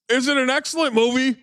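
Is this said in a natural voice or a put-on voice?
put-on. It is read in an imitated, put-on voice.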